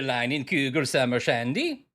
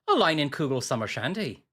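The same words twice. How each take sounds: First: It is said in the speaker's ordinary accent. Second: It is said in a put-on Irish accent.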